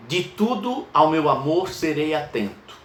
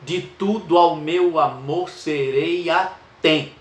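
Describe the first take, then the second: First: Measured verse reading; poem recited. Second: "De tudo ao meu amor serei atento." slow, every poetic syllable marked; teacher scanning a sonnet line; scanned verse. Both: Shown as a demonstration. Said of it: "Vamos contar as sílabas poéticas".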